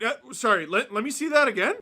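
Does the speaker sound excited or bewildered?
bewildered. It sounds hesitant and bewildered.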